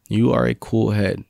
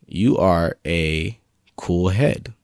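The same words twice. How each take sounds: First: Said in the usual way. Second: Slow, drawn-out affirmation; slow first take. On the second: Shown as a demonstration. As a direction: let each word land slowly.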